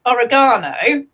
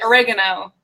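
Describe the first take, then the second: First: "oregano" as o-ri-GAH-no, stress on GAH; "oregano" with a long, stressed AH; British pronunciation. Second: "oregano" as uh-REG-uh-no, stress on REG; "oregano" with short, stressed REG; American pronunciation. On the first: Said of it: "we pronounce this oregano". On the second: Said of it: "So we pronounce it oregano". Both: Shown as a demonstration.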